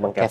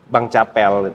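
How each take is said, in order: First: The name starts 'ke' with a 'v' sound. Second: The name starts 'ca' with a 'p' sound. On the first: This is how the name is actually said. The speaker calls it right. "Tapi Kevel ya" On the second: This is the name friends commonly use. The speaker calls it wrong. "teman-teman filsafat tuh manggil Bang Capel"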